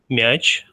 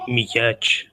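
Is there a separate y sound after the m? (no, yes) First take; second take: no; yes. First: The m is soft with no separate y sound. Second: A separate y sound follows the m. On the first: The speaker calls it right. "you don't pronounce this like y" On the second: The speaker calls it wrong. "you don't say мяч"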